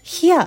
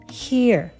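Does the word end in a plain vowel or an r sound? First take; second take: plain vowel; r sound. First: The word ends in a plain vowel without r. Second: The word ends with a pulled-back tongue r. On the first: The speaker calls it wrong. "これもhere ってどうしても発音しがちですけど" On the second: The speaker calls it right. "舌をちょっと後ろに引っ込めてer って音を"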